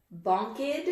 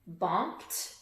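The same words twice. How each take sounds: First: "Bonked" said as bonk-id, with an extra syllable; wrong ID ending. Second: "bonked" ending in a crisp T sound, a little softer. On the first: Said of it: "Which one?". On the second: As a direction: say "bonked" as bonkt. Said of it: "Sounds like a T". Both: Shown as a demonstration.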